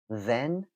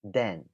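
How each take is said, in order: First: The word begins with a th sound. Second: The word begins with a d sound.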